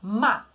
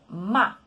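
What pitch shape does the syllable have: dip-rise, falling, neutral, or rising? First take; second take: falling; falling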